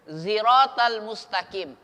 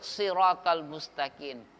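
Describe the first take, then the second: First: The first sound is a voiced z. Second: The first sound is a plain, light s. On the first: "sin dibaca za" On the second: "boleh dibaca sin"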